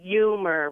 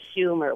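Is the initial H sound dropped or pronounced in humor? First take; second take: dropped; pronounced. First: The word starts without an H sound. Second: The word starts with an H sound.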